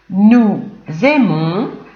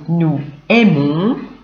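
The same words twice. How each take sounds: First: The s of nous links as a z sound. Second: The s of nous is silent, no link.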